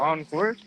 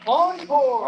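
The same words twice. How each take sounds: First: Said in the usual way. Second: High, loud excited call. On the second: Real, not acted. Announcing rider start on livestream.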